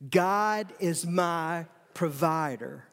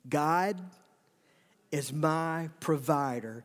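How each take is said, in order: First: It is said forcefully, with strong conviction. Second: It is said plainly, without extra force.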